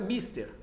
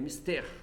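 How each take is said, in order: First: The stress is on the next-to-last syllable. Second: The stress is on the final syllable. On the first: The speaker calls it wrong. "não é mister" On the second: The speaker calls it right. "São oxítonos"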